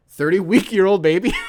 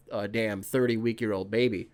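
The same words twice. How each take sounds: First: Incredulous echo. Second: Said in the usual way. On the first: Real, not acted. Host catching his own slip, amused disbelief.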